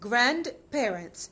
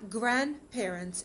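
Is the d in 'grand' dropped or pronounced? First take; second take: pronounced; dropped. First: The d in grand is clearly pronounced. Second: The d in grand is dropped. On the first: The speaker calls it wrong. "بسمعها دايما بتقولوا grand parents. لأ،" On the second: The speaker calls it right. "الصح بتاعها"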